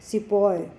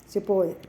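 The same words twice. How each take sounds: First: The word ends with an 'oy' sound. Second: The same.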